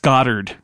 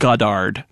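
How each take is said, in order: First: The name is said with an American pronunciation. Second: The name is said with a non-American pronunciation. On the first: The speaker calls it right. "that's Goddard in American English" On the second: The speaker calls it wrong. "not Goddard"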